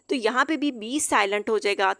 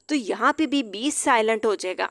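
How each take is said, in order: The two takes are said the same way.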